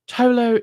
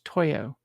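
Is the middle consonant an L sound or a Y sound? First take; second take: L; Y. First: The middle consonant is an L sound. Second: The middle consonant is a Y sound. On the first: The speaker calls it wrong. "It's probably not pronounced the way I pronounce it" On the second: The speaker calls it right. "It's probably pronounced Toyo"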